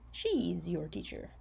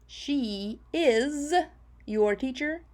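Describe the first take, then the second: First: The two words are joined into one short contraction. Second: The two words are said fully and separately.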